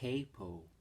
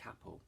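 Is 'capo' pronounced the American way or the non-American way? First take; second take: American; non-American. First: The word is pronounced the American way. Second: The word is pronounced a non-American way. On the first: "Americans say capo" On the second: "we're not Americans, so we're going to call it a capo"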